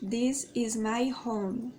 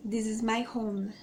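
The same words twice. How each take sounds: First: "This is my home" said very slowly, word by word; slow careful demo. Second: Said in the usual way. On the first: Shown as a demonstration. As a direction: spell it out slowly for learners. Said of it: "x0.5 repeat". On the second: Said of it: "em inglês vai ficar".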